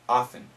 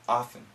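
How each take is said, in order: Both takes have the same delivery.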